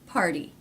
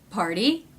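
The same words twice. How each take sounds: First: The pitch falls at the end. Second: The pitch rises at the end. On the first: It ends a wh- question. "Questions that go down in pitch at the end are all other questions" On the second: It ends a yes-no question. "The questions that go up in pitch at the end are yes-no questions"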